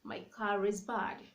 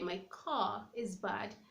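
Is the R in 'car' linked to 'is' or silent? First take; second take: linked; silent. First: The R in car links into is. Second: The R in car is silent before is. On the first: "I can link the R to the vowel saying" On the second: "So I don't have to say"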